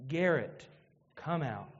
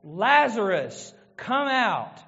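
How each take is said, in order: First: Much lower and softer, barely there; imagine hearing your own name called, tender; the preacher imagining his own resurrection, hushed; hushed hope. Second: Slow, loud summons into the tomb; Jesus calling Lazarus from the grave, loud and slow. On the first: Retold or imitated. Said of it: "I want to hear". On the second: A narrator's reading. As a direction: call the dead man out, commanding. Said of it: "he cried out with a loud voice".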